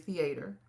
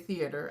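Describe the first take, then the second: First: It is said with a Texan pronunciation. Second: It is said with a standard non-Texan pronunciation. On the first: This is how the speaker normally says it. "I say theater" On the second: This is not how the speaker says it. "I don't say theater"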